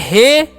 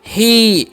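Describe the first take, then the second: First: The vowel is a short 'ay' sound. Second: The vowel is a long 'ee' sound. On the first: The speaker calls it wrong. "इसे हे नहीं पढ़ना है।" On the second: The speaker calls it right. "Last में ई का उच्चारण कर देना है दीर्घित।"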